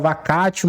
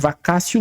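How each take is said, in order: First: The middle consonant is a hard t sound. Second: The middle consonant is an s-like sound. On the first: The speaker calls it wrong. "Tem gente que fala vacatio, mas eu acho que é errado" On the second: The speaker calls it right. "Eu uso a vacácio legis"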